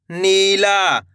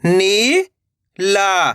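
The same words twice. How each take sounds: First: Said in the usual way. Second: "Neela" split into two long syllables. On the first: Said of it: "तो मिलके बन जाएगा". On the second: Shown as a demonstration. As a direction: draw out नी, pause, then ला in "Neela". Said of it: "एक एक अक्षर का उच्चारण". ("नीला" को तोड़कर, नी... ला)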